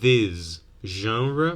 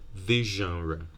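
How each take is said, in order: First: 'This' ends with a plain s sound. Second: 'This' ends with an sh sound.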